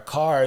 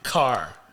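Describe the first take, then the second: First: The first consonant sound is soft. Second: The first consonant sound is hard. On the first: It is the word spelled with a C. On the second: It is the word spelled with a K.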